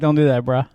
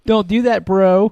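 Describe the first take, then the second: First: The last word is reduced to bruh. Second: The last word is fully pronounced as bro. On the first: It sounds casual and cool. The speaker calls it right. "You gotta be like" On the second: It sounds uncool. The speaker calls it wrong. "If you say bro, you're lame"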